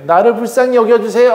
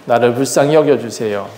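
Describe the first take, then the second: First: High, imploring petition; pleading prayer. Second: Said in the usual way. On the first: Acted. Leah prays to God for pity, high pleading. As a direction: beg for pity, voice lifted high. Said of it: "하고 기도했던 게".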